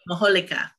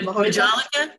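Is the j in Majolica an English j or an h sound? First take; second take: h sound; English j. First: The j sounds like an h. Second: The j sounds like an English j. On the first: "It would be Majolica" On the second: "I'm anglicizing it"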